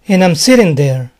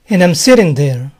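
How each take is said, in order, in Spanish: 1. "I'm" se reduce a un sonido corto "am". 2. "I'm" se reduce a un sonido corto "am".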